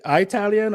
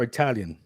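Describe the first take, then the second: First: "Italian" pronounced eye-TAL-yun; long-I "Italian". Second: Said in the usual way. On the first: Shown as a demonstration. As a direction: say the first syllable of "Italian" like "eye". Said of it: "they say Italian". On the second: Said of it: "For me, it's Italian".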